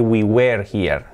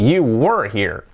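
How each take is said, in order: First: "were" wrongly said "wer" with a clear e; slow, low "were" that rhymes with "where"; typical mistake. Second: Slow "were" as "wur", e dropped; consonants-only were. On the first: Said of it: "lo típico es decir". (error típico: "were" con e clara, como "uer") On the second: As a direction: say "were" with just W and R. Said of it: "nos quedamos solo con las consonantes". ("were" sin es, solo W y R, despacio) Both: Shown as a demonstration.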